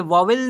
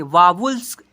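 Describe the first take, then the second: First: वावेल ending in an "-el" sound; rejected pronunciation. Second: वावल्स louder, ending in "-uls"; approved pronunciation. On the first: Teacher warns pupils off this reading, "-el" ending. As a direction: say वावेल with e in the last syllable. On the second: Teacher gives pupils the preferred reading, "-uls" ending. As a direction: punch out वावल्स with a short last vowel. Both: Shown as a demonstration. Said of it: "इसे वावेल नहीं पढ़ेंगे".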